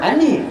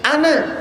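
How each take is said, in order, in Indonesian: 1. Kata ini berakhir dengan bunyi yang mirip e. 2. Kata ini berakhir dengan bunyi a terbuka.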